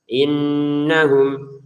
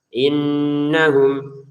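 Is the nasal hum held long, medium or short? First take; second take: medium; medium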